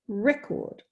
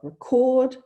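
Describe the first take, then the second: First: It is stressed the way the noun is. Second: It is stressed the way the verb is. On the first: The word is used as a noun. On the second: The word is used as a verb.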